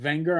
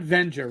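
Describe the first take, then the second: First: The name begins with a W sound. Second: The name begins with a V sound. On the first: The speaker calls it right. "It's Wenger. I gotta pronounce it right" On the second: The speaker calls it wrong. "it's not Venger"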